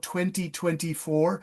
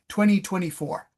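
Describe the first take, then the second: First: It is said precisely, in a British style. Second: It is said fast, in an American style. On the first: "I'm really precise with the British style" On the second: "Americans say twenty twenty-four real fast"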